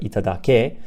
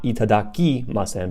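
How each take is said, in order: First: "itadake" said with -ke, the potential form; correct form stressed. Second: "itadakimasen" said with -kimasen, the form to avoid; wrong form named. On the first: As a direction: land on the ke in "itadake". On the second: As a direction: say "itadakimasen" clearly as i-ta-da-ki-ma-sen. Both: Shown as a demonstration. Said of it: "Not itadakimasen".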